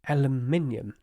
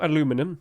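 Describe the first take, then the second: First: The word is said as aluminium. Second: The word is said as aluminum. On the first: The speaker calls it right. "Yes, aluminium" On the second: The speaker calls it wrong. "not aluminum, you peasants"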